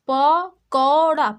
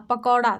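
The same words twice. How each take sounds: First: पकौड़ा stretched slowly and loudly, औ held long; slow loud sounding out. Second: Said in the usual way. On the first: Shown as a demonstration. Teacher to kids, loud slow पकौड़ा. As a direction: call पकौड़ा out slowly for the class. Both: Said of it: "उसी प्रकार यहाँ पे देखिए".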